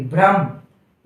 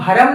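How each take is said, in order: First: The first two consonants form one cluster. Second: A vowel separates the first two consonants. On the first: The speaker calls it right. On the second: The speaker calls it wrong.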